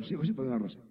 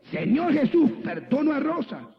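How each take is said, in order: First: Imitated grudging mumble, much softer; reluctant mumbled prayer. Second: High, emphatic prayer line to be copied; insistent model prayer. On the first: Woman repeats pastor's prayer unwillingly, reluctant mumble. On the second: Retold or imitated. Pastor models prayer for reluctant woman, insistent. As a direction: show them firmly how to pray it, pitched high.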